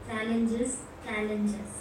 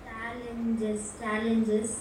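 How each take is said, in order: The two takes are said the same way.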